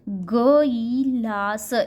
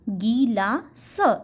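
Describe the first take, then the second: First: The word is drawn out in one continuous stretch. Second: The word is split into syllables with pauses. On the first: The speaker calls it wrong. "Stretch करते हैं word को, जैसे गिलास" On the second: The speaker calls it right. "Break करके पढ़ते हैं, तोड़ कर पढ़ते हैं"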